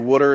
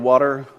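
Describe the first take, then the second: First: It is said as "wooder", in a local accent. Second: It is said as "water", in a standard accent. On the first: "we say words like wooder" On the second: "instead of water"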